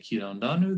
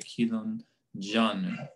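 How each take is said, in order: First: The second word starts with a smooth r sound. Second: The second word starts with a stopped dj sound. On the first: The speaker calls it wrong. "they don't say kilon ranu" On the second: The speaker calls it right. "pronounced instead as a post-alveolar affricate"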